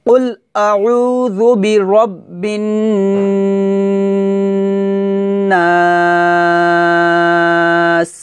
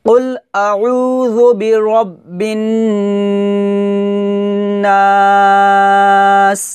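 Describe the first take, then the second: No difference in how they are said.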